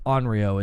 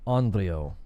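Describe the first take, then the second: First: The r sound is a plain English r. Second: The r sound is rolled or tapped. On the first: "is how we would say it like phonetically" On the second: "if you try to say it with like the actual like rolling"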